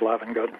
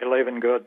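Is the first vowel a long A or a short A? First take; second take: short A; long A. First: The first vowel is a short A sound. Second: The first vowel is a long A sound. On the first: This is how most other people say it. "but most of the world says" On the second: This is how the family itself says it. "I pronounce it the long A"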